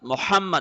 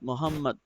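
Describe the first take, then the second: First: The h sound is sharp and breathy. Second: The h sound is plain and soft. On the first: The speaker calls it right. "Ha is sharper" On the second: The speaker calls it wrong. "but people say Muhammad"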